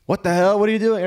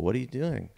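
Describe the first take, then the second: First: High, loud mock-panicked outcry; panicked crowd. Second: Mildly puzzled question, voice slightly up; lightly acted onlooker asking what's up; puzzled bystander. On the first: Whole family reacts to a gun, acted panic. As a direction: play the alarmed relatives at full pitch. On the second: Family member questions the man with soup, mildly puzzled.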